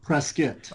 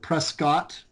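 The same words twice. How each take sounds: First: The name is said the insider way. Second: The name is said the outsider way. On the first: The speaker is from the town. The speaker calls it right. "if you're an insider, you now you pronounce it Prescott" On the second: The speaker is not from the town. The speaker calls it wrong. "if you're an outsider, you pronounce it Prescott"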